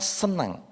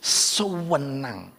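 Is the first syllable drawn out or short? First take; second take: short; drawn out. First: The first syllable is short and plain. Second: The first syllable is stretched out long. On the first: It is simply pleasant. "bukan cuma senang" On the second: It is extremely pleasant. "kalau menekankan kata, itu dipanjangkan depannya"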